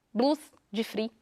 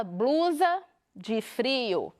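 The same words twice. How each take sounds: First: "Blusa de frio" in Minas Gerais accent, syllables swallowed as "blus de fri"; mineiro accent. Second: Said in the usual way. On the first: Shown as a demonstration. Teacher demonstrating how a mineiro says it, in Minas accent. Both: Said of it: "Como que o mineiro fala?".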